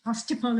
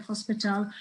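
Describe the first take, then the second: First: "hostiple", with the p and t of hospital swapped; mispronounced hospital. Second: Said in the usual way. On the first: Shown as a demonstration. Showing how dyslexics mispronounce hospital, mispronounced as "hostiple". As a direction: say "hostiple", syllables out of sequence. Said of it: "dyslexics very often mispronounce words". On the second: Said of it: "instead of hospital".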